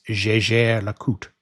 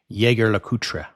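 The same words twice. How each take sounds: First: A soft French j, with a light ending. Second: Jaeger is read like a German word, English style. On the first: "the official pronunciation, is" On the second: "In English-speaking countries, especially in the U S, you'll often hear someone say"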